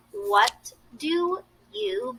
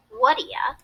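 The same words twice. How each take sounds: First: "what do you" spoken slowly with each word clear; slow, deliberate full form; careful full form. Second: "what do ya?" blended, you cut to ya; casual reduced version; reduced form. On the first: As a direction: spell it out slowly and fully. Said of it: "Notice how". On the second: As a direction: say it relaxed and run together. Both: Shown as a demonstration.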